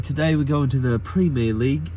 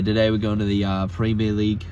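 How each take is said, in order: First: It is spoken in a British-sounding accent. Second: It is spoken in an Australian-sounding accent.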